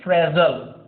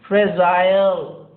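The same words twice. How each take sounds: First: It is said in an American accent. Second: It is said in a British accent.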